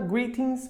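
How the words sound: It is said with a British accent. "pronúncia britânica"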